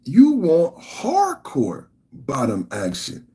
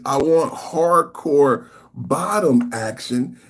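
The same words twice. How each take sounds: First: Slow emphatic repeat, stressing you; slow mocking stress. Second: Slow drawn-out quote; mock reading. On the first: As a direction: drag out the quote to mock it. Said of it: "you said". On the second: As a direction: stress on want, slow. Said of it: "she says".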